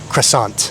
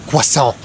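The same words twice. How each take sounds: First: It is said with an American pronunciation. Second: It is said with a French pronunciation. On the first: The speaker calls it right. "in English, we say" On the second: The speaker calls it wrong. "people would think it's weird that he says it like that"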